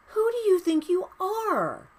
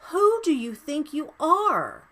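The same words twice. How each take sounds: First: Even higher, "you" punched hard in indignation; climax of rant. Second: Higher, indignant "Who" stressed, then falling; real indignation, rising; outraged rant. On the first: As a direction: peak of real outrage. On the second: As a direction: challenge him head on. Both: Real, not acted. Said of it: "Sorry, rant over".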